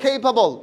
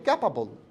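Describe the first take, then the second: First: The first vowel is long, like in cake. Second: The first vowel is short, like in cat. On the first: The speaker calls it right. "বলেন কেইপাবল" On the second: The speaker calls it wrong. "আমরা বলি ক্যাপাবল"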